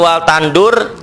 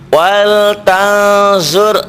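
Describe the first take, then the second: First: The middle consonant is a plain d sound. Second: The middle consonant is a z-like sound. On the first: The speaker calls it wrong. "bukan wal tandur" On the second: The speaker calls it right. "wal tanzur zo zo z h o"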